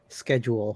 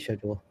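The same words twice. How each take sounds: First: It is said with an American pronunciation. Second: It is said with a British pronunciation. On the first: The speaker calls it right. "the right way to say it here is schedule" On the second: The speaker calls it wrong. "the British way"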